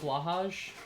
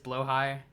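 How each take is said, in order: First: The name is said in a more Swedish-sounding way. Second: The name is said in a less Swedish-sounding way. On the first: This is the pronunciation the speaker prefers. "it sounds more Swedish to me" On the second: This is the technically correct pronunciation. "But I do recognize that it is Blowhigh, technically"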